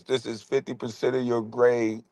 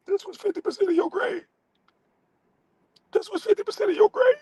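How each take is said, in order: First: Said in the usual way. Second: Shrill falsetto taunt, very high and fast; squeaky mock voice. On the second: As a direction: squeal it like a cartoon teacher. Mock high voice repeating line.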